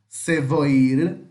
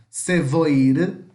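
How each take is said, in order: The two takes are said the same way.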